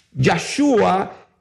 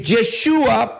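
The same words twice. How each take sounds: First: "Yahshua" set apart, opening on YAH; pronounced with YAH. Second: "Yeshua" drawn out slowly, opening on YE; pronounced with YE. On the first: Preacher repeating the preferred name, "Yahshua" with YAH. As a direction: say "Yahshua" with an open A first. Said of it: "se escribe con Yahshua". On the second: Preacher contrasting the other reading, slow "Yeshua" with YE. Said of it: "y no Yeshua". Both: Shown as a demonstration.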